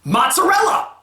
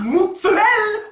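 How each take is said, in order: First: The first syllable is said 'mots', as spelled. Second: The first syllable is said 'moo', not as spelled. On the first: The speaker calls it right. "Read it out!" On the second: The speaker calls it wrong. "There's no M O O, so it's not moo!"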